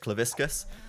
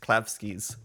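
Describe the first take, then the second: First: The name is pronounced as 'Claviscus'. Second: The name is pronounced as 'Klavskis'. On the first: The speaker calls it wrong. "I've been saying it wrong for like two years" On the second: The speaker calls it right. "I realized recently it's Klavskis"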